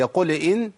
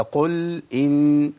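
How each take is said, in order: First: "قل ان" said as "qule in", the l given a small vowel; chanted "قل ان" with a vowel slipped after lam; shaken lam. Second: "قل ان" with the l of "قل" closed, no vowel after it; slow chant, clean vowelless lam in "قل"; still lam. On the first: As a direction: bounce the l of "قل". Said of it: "بيحرك الساكن". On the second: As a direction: hold "قل" still, then start "ان". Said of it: "تسكين الحرف مهم قوي". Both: Shown as a demonstration.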